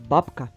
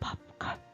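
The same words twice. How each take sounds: First: The word is said in a normal voice. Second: The word is whispered very quietly.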